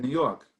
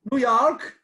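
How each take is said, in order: First: Said in the usual way. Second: Lightly faked American, high and loud; mock New York. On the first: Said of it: "I said". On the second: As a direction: blurt it out as a fake Yank. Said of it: "Marty looks at us and just goes".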